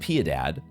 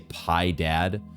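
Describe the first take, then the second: First: The name has Spanish-like vowels, 'pyeh-dahd'. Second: The name sounds like English 'pie dad'. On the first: The speaker calls it right. "I'm pronouncing it the Latin way" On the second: The speaker calls it wrong. "you could say Pi Dad"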